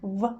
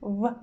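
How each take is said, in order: Both takes have the same delivery.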